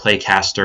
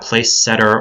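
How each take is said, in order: First: It sounds like play-caster, with a k sound. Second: It sounds like place-setter, with an extra syllable. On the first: "or Playcaster or any of those other weird pronunciations" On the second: "It's not Placesetter"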